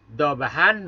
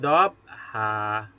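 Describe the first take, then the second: First: The word ends with an n sound. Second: The word ends with a lengthened vowel, no n. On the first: This is the form with the tanwin as written. "Fathatain di akhir kalimat atau kita wakaf" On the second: This is how it is read when stopping. "fathatain ini diganti bacaan panjang. Dua harkat"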